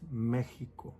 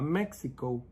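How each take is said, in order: First: The x is not sounded as ks. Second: The x is sounded as ks. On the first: The speaker calls it right. "Even though it has that X, we don't pronounce it" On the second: The speaker calls it wrong. "It's not Mexico"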